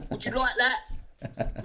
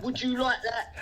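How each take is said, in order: First: Stretched, mocking question; slow taunt. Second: Said in the usual way. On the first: Real, not acted. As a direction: dangle it slowly in front of him. Taunting David.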